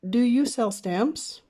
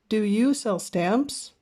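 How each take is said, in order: No difference in how they are said.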